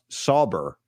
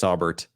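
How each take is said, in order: First: The name ends without a final T sound. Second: The name ends with a final T sound. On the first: "It's pronounced Sauber" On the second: "he says T"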